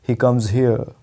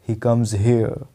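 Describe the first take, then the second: No difference in how they are said.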